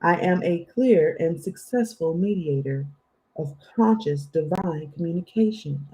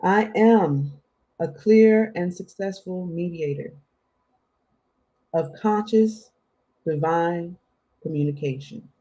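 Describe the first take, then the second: First: Said in the usual way. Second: Measured affirmation with long pauses between phrases; slower. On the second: Shown as a demonstration. Reader giving listeners an affirmation to write down, slower. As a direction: say it phrase by phrase, leaving room to repeat. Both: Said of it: "affirmation again slower".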